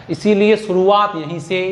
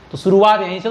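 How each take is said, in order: First: इसीलिए शुरुआत यहीं से said slowly, each word weighed; slow down and lean on इसीलिए to drive the point home; teacher stressing why the start matters; slow emphatic. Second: Said in the usual way. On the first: Shown as a demonstration. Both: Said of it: "तो शुरुआत ही अच्छी करो".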